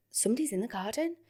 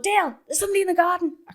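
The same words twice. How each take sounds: First: Softer, questioning inner voice; hushed alarmed thought. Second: High, fast call to partner; acted alarmed call. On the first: Retold or imitated. Woman hearing noises outside at bedtime, hushed alarmed thought. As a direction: think it aloud, uneasily. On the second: Woman warning partner of garden intruder, acted alarmed call. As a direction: call Dale in urgent mock panic.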